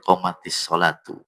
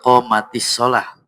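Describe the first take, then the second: First: The last word ends in an -atu sound. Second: The last word ends in an -ah sound. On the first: The speaker calls it wrong. "Bukan ti tapi tu pun" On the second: The speaker calls it right. "Melainkan kecuali"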